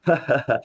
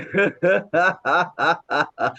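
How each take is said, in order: First: Casual open-mouthed ha-ha laugh; short demonstration of ordinary laughter; demonstrated normal laugh. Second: Long rhythmic laugh after a nose breath; controlled run of evenly pulsed ha-has; laughter yoga laugh. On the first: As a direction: mimic an everyday laugh, careless of breath. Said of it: "आप ऐसे हंस रहे हो". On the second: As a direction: demonstrate deliberate, sustained exercise laughter. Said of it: "और फिर हंसते हैं". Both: Shown as a demonstration.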